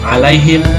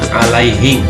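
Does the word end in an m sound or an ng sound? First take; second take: m; ng. First: The word ends with an m sound. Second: The word ends with an ng sound. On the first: This is the form being taught. "menyebut alaihim" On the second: This is how people in Sulawesi end up saying it. "keluarnya alaihing"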